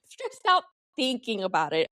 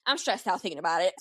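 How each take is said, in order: First: Laughing through a repeat of "stressed out". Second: Said in the usual way. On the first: Shown as a demonstration. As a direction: say it again, breaking into a laugh.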